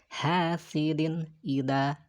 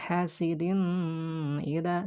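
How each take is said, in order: First: The n sound is pronounced clearly. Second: The n sound is blurred and nasalized. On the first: The speaker calls it right. "jelas dinnya" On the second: The speaker calls it wrong.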